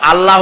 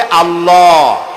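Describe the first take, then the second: First: আল্লাহ said short, last vowel an open "a"; incorrect short pronunciation. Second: আল্লাহ with a long, rounded "aw" ending; correct rounded pronunciation. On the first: Preacher showing the wrong form, short open-vowel pronunciation. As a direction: say আল্লাহ quickly with an unrounded ending. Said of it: "আল্লাহ হচ্ছে অশুদ্ধ". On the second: Preacher showing the right form, long rounded pronunciation. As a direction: round the mouth and hold the last vowel of আল্লাহ. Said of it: "শুদ্ধ হচ্ছে আল্লাহ". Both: Shown as a demonstration.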